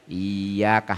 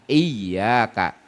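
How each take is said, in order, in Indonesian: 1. Bunyi y pendek dan tunggal. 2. Bunyi y digandakan dan ditekan kuat. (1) "tidak pakai sidah" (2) "ditekan berat"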